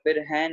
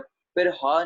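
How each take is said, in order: First: The second word ends in an 'ai' vowel. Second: The second word ends in a long 'aa' vowel. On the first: "फिर है नहीं बोलना" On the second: "फिर हा नहीं बोलना"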